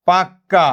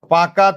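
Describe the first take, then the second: First: পাক্কা with a held double k, "pak-ka"; forceful doubled consonant. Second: Said in the usual way. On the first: Shown as a demonstration. Teacher showing gemination to class, পাক্কা said forcefully with doubled k. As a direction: close hard on the k in পাক্কা, pause, then release "ka". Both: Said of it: "জোর দিয়ে উচ্চারণ করার জন্য".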